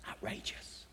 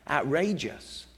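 First: Outrageous breathed as a pure whisper, no voice. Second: Said in the usual way. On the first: Acted. Preacher marvelling at Jesus' promise, whispered. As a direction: drop to a hush on outrageous. Repeated word, second whispered.

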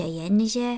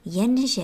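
First: Said in the usual way. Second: Jenže stressed, louder with a falling tune; emphatic first jenže. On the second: A narrator's reading. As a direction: land the first Jenže firmly.

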